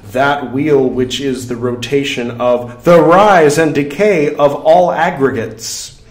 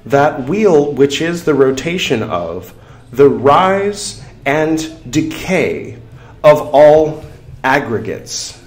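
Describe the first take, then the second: First: It is read at a normal pace. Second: It is read more slowly.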